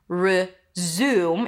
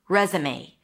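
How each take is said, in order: First: The stress falls on the second syllable. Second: The stress falls on the first syllable. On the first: To start something again. "it's an R sound, then a Z, and then the U as in food" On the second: A document listing your work history. "Re, as in red... May. A as in day"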